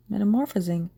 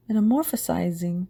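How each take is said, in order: First: Metamorphosing said carefully, no extra syllable; corrected word. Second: Metamorphosizing with an extra -iz- syllable; mispronounced word. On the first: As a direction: fix it to Metamorphosing. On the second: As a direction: stumble into Metamorphosizing, softer. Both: Shown as a demonstration. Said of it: "What the hell is this word?".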